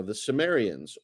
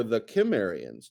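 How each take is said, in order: First: "Sumerians" begun with a soft s sound; soft-C pronunciation. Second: "Kimmerians" begun with a hard k; hard-C pronunciation. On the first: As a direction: say "Sumerians" with an s at the start. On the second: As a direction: hit a k at the start of "Kimmerians". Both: Shown as a demonstration. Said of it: "depending on how you pronounce that C".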